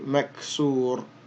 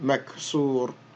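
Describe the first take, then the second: No difference in how they are said.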